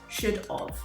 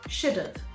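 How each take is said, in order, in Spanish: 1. Suena como dos palabras separadas. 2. Los sonidos se unen rápidamente en una sola palabra. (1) "instead of" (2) "should blend together quickly, like this"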